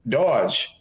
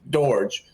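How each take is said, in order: First: "Dodge" with no R sound; "Dodge", rhyming with "lodge"; corrected pronunciation. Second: "Dorge" with the R sounded; "Dorge", rhyming with "gorge"; pronounced as spelt. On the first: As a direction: say "Dodge" like the English word, dropping the R. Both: Shown as a demonstration. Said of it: "But it's pronounced".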